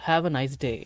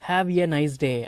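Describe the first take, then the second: First: The word 'a' is reduced and linked on. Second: The word 'a' is a full separate 'ay'. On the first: The speaker calls it right. "இந்த மாதிரி சேர்த்து தான் பேசணும்" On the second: The speaker calls it wrong. "அந்த மாதிரிலாம் பேசக்கூடாது"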